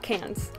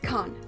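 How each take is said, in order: First: It is one syllable ending in an s sound. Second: It is one syllable ending in an n sound. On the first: The speaker calls it wrong. "not Cans" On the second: The speaker calls it right. "I know how to pronounce it, and it's Con"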